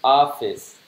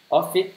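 First: "Office" ending in a clear s; correct pronunciation. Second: "Office" with the final s dropped, pitched higher and rising; deliberate mispronunciation. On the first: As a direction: say "Office" properly with the final s heard. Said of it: "Mình nên đọc là office". (đọc đúng "Office", có âm s cuối rõ) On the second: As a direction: mispronounce "Office" on purpose, leaving off the s. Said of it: "Mình đọc sai thử". (cố ý đọc sai "Office", bỏ âm s cuối, giọng cao lên) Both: Shown as a demonstration.

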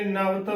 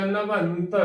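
First: ਨਵਤ with no nasal, "navat"; wrong pronunciation. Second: ਨਵੰਤ as "na-vant"; full nasal. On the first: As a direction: drop the tippi, saying ਨਵਤ. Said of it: "ਇਸ ਨੂੰ ਕਈ ਕਿਵੇਂ ਉਚਾਰਨ ਕਰਦੇ ਨੇ". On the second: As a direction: let the nasal ring before the t in ਨਵੰਤ. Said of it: "ਉਹ ਭਰ ਕੇ ਬੋਲੀ ਜਾਵੇਗੀ". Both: Shown as a demonstration.

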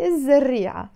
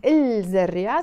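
First: الزريعة with the L dropped into a doubled Z; silent L. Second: الزريعة with the article's L sounded before the Z; L pronounced. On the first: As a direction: say الزريعة as iz-zarria, no L. (leave the L unsounded in الزريعة) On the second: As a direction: say الزريعة as il-zarria, L audible. (sound the L in الزريعة) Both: Shown as a demonstration. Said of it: "we don't pronounce the L".

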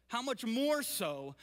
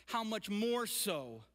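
No difference in how they are said.

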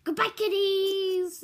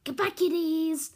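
First: Slow, high mock Russian goodbye; Russian accent. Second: Loud mock Russian goodbye; Russian accent. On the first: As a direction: lay on a hammy Russian accent. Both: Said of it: "this is my Russian accent".

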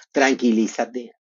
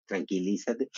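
First: Calming husband. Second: "tranquilízate" much softer, lower, rising gently; husband calming his rushing wife, softly; soothing husband, softer. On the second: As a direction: hush her down like a patient spouse. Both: Retold or imitated. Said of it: "me tranquiliza, Marco Antonio".

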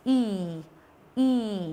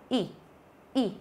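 First: "y" as a long, drawn-out ee. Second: "y" as a quick, short ih. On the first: Teacher showing students the long vowel, "y" stretched as ee. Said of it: "âm y dài nhá, đọc là y". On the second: Teacher showing students the short vowel, "y" clipped quick. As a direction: cut "y" short with one push of the jaw. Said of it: "đọc cái âm này nó nhanh". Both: Shown as a demonstration.

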